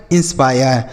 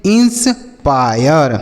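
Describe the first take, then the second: First: Said in the usual way. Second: inspire broken and stretched, "ins... paa-yar"; slow demonstration. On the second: Shown as a demonstration. Teacher drills students on the word, slow and broken up. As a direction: draw out inspire very slowly in parts. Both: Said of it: "क्या पढ़ेंगे?".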